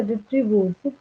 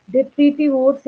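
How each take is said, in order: First: "detrivores" said slowly as de-tri-vores; "detrivores" with no "ti" after "tri"; shorter pronunciation. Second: "Detritivores" said slowly as de-tri-ti-vores; "Detritivores" with the "ti" sounded after "tri"; longer pronunciation. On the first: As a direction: say "detrivores" in three beats. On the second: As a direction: say "Detritivores" with all four beats. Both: Shown as a demonstration. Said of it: "दोनों ठीक है".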